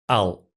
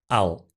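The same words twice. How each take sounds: The two takes are said the same way.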